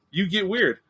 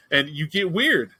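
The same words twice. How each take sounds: First: "weird" said higher, with a falling end; a higher comic echo of "weird"; higher repeat. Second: Drawn out slowly, falling on weird; slow, deadpan "weird"; slow emphasis. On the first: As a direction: lift the repeat up and drop on "weird". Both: Shown as a demonstration. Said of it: "repeated for emphasis".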